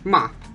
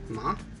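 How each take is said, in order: First: The pitch falls sharply and cuts off. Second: The pitch rises like a question. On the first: "the last one is a falling tone" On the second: "the second one is a rising tone"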